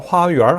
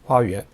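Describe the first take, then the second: First: The word ends with an r-colored sound. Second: The word ends plainly, with no r-colored sound.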